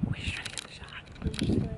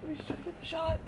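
First: High breathy whisper. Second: High quiet whiny voice; high whine. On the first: Still waiting for the photo, a high whispered plea. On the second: Waiting for the photo, high quiet whine. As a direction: whine it softly. Repeat before the whisper. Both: Real, not acted.

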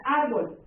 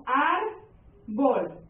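First: Said in the usual way. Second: "árbol" split slowly as "ár... bol"; syllable by syllable. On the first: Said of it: "la siguiente palabra". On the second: Shown as a demonstration. Teacher classifying a word for the class, syllable by syllable. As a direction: break "árbol" into two drawn-out beats.

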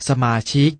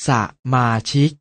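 First: Said in the usual way. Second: สะ, short pause, มาชิก; syllable by syllable. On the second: Shown as a demonstration. Teacher showing an exception, สะ-มา-ชิก in separated syllables. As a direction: set สะ apart from มาชิก. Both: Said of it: "อ่านว่า".

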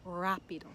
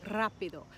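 First: "rápido" with a simple English-style R, no trill; unrolled R. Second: "Rápido" with a trilled opening R; rolled R. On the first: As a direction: start "rápido" without rolling the R. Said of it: "if you don't know how to roll". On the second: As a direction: roll the R at the start of "Rápido". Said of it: "how to roll your R". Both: Shown as a demonstration.

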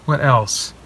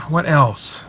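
Both takes have the same delivery.

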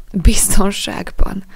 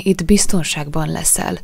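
First: Slow, bitter repeat of the word; bitter echo. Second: Said in the usual way. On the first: A narrator's reading. Jack repeating the boy's promise, bitterly. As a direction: throw the word back, slow and louder. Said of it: "ismételte Jack keserűen".

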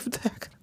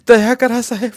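First: Broken whisper for mercy; spent, whispered begging; whispered plea. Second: Higher and louder cry for mercy; wife crying out to the officer for mercy; loud plea. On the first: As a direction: let the plea collapse into a whisper. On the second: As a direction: call out for mercy. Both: Acted. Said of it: "Kashibai रडू लागल्या".

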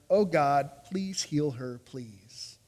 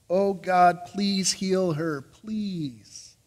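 First: A brother begging God for his sister, fading to almost nothing; fading plea. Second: Slow, sincere prayer, each word set down gently; slow earnest plea. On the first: Moses begging God to heal his sister, fading plea. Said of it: "And Moses cried to the Lord". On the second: Moses interceding for his sister, slow earnest plea. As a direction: plead it earnestly, taking your time. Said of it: "Moses intercedes". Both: Acted.

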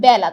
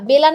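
First: বেলা with open "æ", as bæla; open vowel. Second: বেলা with closed "e", as bela; closed vowel. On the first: Teacher answers what we do say, open vowel. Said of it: "আমরা কি বলি". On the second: Teacher shows what we avoid saying, closed vowel. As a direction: say বেলা with a plain e, not æ. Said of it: "বেলা না বলে". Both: Shown as a demonstration.

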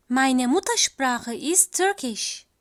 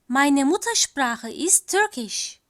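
No difference in how they are said.

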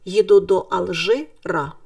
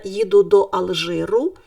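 First: Алжира ending in an open а sound; city ending а. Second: Алжиру ending in a clear у sound; country ending у. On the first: Teacher naming the city form, ending а. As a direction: land on the final а of Алжира. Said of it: "якщо це місто". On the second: Teacher naming the country form, ending у. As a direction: land on the final у of Алжиру. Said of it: "якщо це країна". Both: Shown as a demonstration.

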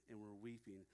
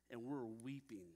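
First: Much softer, lower, the words sinking away; softer repeat. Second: Said in the usual way. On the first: A narrator's reading. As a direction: let the repeat fade down to a hush. Emotional farewell retold.

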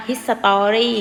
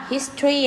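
First: "history" in four full syllables, his-sa-taw-ree; wrong "history" pronunciation. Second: "history" as "his-tree", no O sound; correct "history" in two syllables. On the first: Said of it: "ไม่อ่านว่า history ไม่เอานะคะ". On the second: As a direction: say "history" squeezed to HIS-tree, middle vowel dropped. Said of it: "คำนี้อ่านว่า". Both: Shown as a demonstration.

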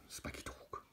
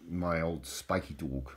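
First: Whispered Spiky dog, softer. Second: Said in the usual way. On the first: Shown as a demonstration. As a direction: breathe the name out under his breath.

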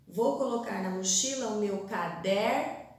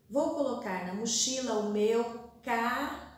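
First: "caderno" broken as cader, long pause, no; split across lines. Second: "caderno" broken as ca, long pause, derno; split across lines. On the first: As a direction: lift and hang on cader before finishing "caderno". ("caderno" quebrado depois de cader, com pausa) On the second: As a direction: lift and hang on ca before finishing "caderno". ("caderno" quebrado depois de ca, com pausa) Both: Shown as a demonstration. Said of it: "faço o mesmo com as palavras indicadas".

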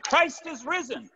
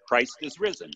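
First: Imitated shout. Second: Said in the usual way. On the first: Pastor escalating the Easter greeting to his church, imitated high shout. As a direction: imitate a shouted proclamation, pitch way up. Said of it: "And he shouted". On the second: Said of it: "And he said more emphatically".

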